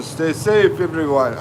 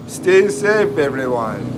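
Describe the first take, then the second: First: Said in the usual way. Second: Put-on Jamaican accent. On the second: Livestreamer rereading a viewer's goodbye message, in a mock Jamaican accent. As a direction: playfully imitate a Jamaican accent. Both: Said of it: "I'm gonna do this in a Jamaican accent".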